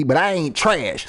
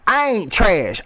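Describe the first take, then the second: First: "ain't trash" dragged out slowly and firmly; slow down and lean on "I ain't trash"; slow emphatic denial. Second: Said in the usual way. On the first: Real, not acted. Insisting to listeners he isn't trash, slow and firm. Defending his music.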